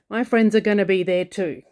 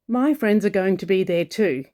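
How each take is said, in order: First: Going to is reduced to gonna. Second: Going to is pronounced fully as two words. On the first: "But in Australia, we say" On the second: "the Australian way of saying going to, as in"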